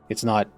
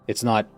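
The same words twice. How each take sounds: Both takes have the same delivery.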